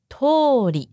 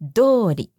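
First: The word begins with an unvoiced t sound. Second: The word begins with a voiced d sound. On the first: It means a road or street. "它其实原本是念作通り" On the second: It means in the way the preceding noun describes. "它的发音变成浊音的通り"

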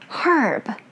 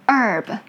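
First: It is said with a British accent. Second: It is said with an American accent. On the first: "British way" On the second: "American way"

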